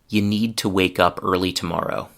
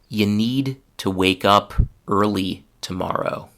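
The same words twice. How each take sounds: First: The sentence is spoken at normal speed. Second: The sentence is spoken slowly. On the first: "the second time will be at normal speed" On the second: "The first time I will speak slowly"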